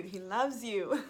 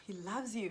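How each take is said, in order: First: Slow, louder, laughing through the words; joy bubbling over as she repeats it; telling viewers God loves them, laughing happily. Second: Said in the usual way. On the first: Real, not acted.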